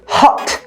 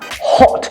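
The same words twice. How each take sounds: First: It is said in an American accent. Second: It is said in a British accent. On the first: "But in American accent, they say hot" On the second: "in British accent, the word hot is pronounced like with an O"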